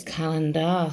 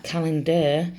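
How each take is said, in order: First: "calendar" with a full open AR at the end; spelling pronunciation. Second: Said in the usual way. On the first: Shown as a demonstration. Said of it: "but it's calendar". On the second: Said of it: "It sounds like calendar".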